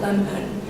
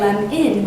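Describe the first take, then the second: First: The second vowel is a reduced uh sound. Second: The second vowel is a short i sound. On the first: "lemon with an uh sound" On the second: "lem-in with an I sound"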